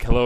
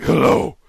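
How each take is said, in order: First: Said in the usual way. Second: Exaggerated, louder and higher hello; put-on character greeting. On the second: Prankster answering the scam call, put-on greeting.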